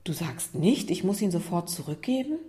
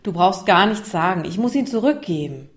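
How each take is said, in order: First: Softly incredulous question, rising at the end; surprised. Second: Mildly exasperated, raised-voice statement; annoyed. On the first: Isa checks what Lukas really means, surprised. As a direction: check in mild surprise, lifting the last word. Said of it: "Isa sah Lukas überrascht an". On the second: Isa pre-empts Lukas's reproach near tears, annoyed. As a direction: cut him off irritably, starting loud. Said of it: "Isa war genervt". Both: Acted.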